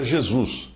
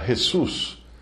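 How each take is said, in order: First: It is said with a Paulista accent. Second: It is said with a Spanish accent.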